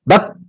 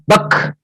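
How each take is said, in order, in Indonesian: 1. Bunyi k akhir berhenti tanpa hembusan napas. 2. Bunyi k akhir diakhiri dengan hembusan napas. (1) "bak sebelum ada hams" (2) "kan ada hamsnya jadi bak"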